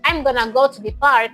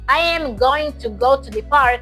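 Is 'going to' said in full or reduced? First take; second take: reduced; full. First: 'I am going to' is reduced to 'I'm gonna'. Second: Every word is said in full, unreduced.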